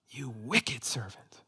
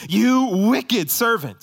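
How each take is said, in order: First: Slow, soft, whispered condemnation; hushed rebuke. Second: High, loud and drawn-out condemnation; thundering rebuke. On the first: Preacher voicing what Jesus would say to us, hushed rebuke. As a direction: let the rebuke sink to a whisper. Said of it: "That's what Jesus would say to us". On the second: Preacher voicing Jesus to the unforgiving servant, thundering rebuke. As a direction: thunder it slowly from the pulpit. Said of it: "That's why Jesus says". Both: Acted.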